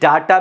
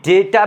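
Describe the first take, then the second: First: The first vowel sounds like 'dah'. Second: The first vowel sounds like 'day'. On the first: "दोनों आवाजें सही हैं" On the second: "दोनों आवाजें सही हैं"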